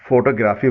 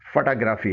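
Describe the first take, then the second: First: फोटोग्राफी said as "FO-to-gra-fee"; everyday Urdu-style फोटोग्राफी, "foto"; common mispronunciation. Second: फोटोग्राफी said as "fuh-TA-gra-fee"; English-style फोटोग्राफी, "fata-grafi"; correct English pronunciation. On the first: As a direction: say फोटोग्राफी with two full o sounds. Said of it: "हम लोग आमतौर पर". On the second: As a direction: say फोटोग्राफी with no full o sounds. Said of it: "सही English pronunciation". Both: Shown as a demonstration.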